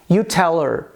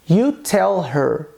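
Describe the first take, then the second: First: The h is dropped, linking 'tell' into 'her'. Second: The h in 'her' is clearly pronounced.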